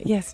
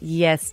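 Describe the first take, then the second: First: It sounds warm and affectionate. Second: It sounds grudging and resentful. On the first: A sincere, loving reply. "used to be so lovely back in the day when our grandparents would say" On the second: Reluctant compliance with someone seen as nagging. "But now it's like"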